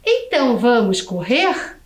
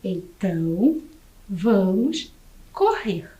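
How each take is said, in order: First: Então, vamos correr? with the pitch rising on correr; Então, vamos correr? asked, rising at the end; question intonation. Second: Então, vamos correr said as a statement, falling flat on correr; Então, vamos correr with a falling, declarative end; statement intonation. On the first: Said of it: "preste atenção na entonação da professora". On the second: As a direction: let correr drop down as a plain statement. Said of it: "prestem bem atenção na entonação". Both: Shown as a demonstration.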